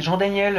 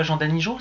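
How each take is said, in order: First: "Jean-Daniel" higher, ending clearly in -iel; corrected name. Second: "Jean-Danijo" ending in a JO sound; mispronounced name. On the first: Shown as a demonstration. Streamer correcting the monsieur, "Jean-Daniel" pitched up with a clear -iel. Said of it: "c'est pas Jean-Danijo". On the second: Retold or imitated. Streamer quoting the monsieur's mistake, "Jean-Danijo" ending in -jo. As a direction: end "Jean-Danijo" on -jo in place of -iel. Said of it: "il t'a appelé Jean-Danijo".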